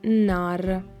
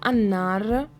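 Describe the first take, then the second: First: The vowel is dropped and the word begins with n. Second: The word begins with a vowel before the n. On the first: Casual fast everyday speech. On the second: The full form with the article.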